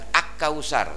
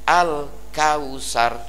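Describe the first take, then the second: First: The l merges into the following k sound. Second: The l is pronounced clearly before the k. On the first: The speaker calls it wrong. "bukan ak kausar" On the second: The speaker calls it right. "tapi al kausar"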